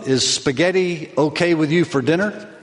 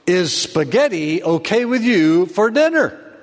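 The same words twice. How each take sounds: First: It is said at a normal, soft volume. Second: It is said loudest, sounding frustrated.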